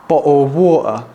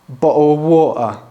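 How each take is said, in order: The two takes are said the same way.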